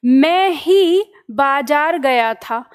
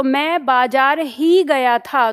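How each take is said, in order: First: Very slow, weight on "मैं ही"; teacher's slow example, "मैं ही" set apart and weighted; stress on मैं ही. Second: Slow, weight on "बाजार ही"; teacher's slow example, "बाजार ही" leaned on; stress on बाजार ही. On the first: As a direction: lean on "मैं ही", drawing the words out. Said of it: "मैं ही पे वजन चला गया". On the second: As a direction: draw out "बाजार ही" as the key words. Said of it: "बाजार पे बल डाल दिया". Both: Shown as a demonstration.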